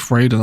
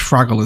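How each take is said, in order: First: The first vowel is a long 'ay' sound. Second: The first vowel is a short 'a' sound. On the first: The speaker calls it wrong. "really enunciating the A" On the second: The speaker calls it right. "it's Fraggle, is it?"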